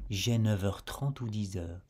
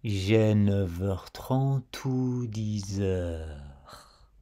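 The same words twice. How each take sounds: First: Said in the usual way. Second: "neuf heures" and "dix heures" said very slowly, each consonant joined to the next vowel; slow linking demo. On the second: Shown as a demonstration. Teacher to learner, slowly spelling out the linking. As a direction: stretch out "dix heures" so every link is heard. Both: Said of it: "tu entendras cet enchaînement".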